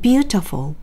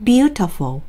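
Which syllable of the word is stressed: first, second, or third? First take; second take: first; first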